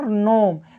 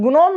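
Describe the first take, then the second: First: No g sound is heard before the n. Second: A g sound is heard before the n. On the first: The speaker calls it right. "सिर्फ पढ़ रहे हैं नोम" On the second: The speaker calls it wrong. "हम गुनोम नहीं पढ़ रहे हैं"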